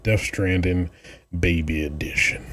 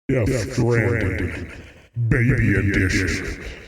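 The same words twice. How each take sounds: First: It is said in an ordinary speaking voice. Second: It is said in a dramatic announcer voice.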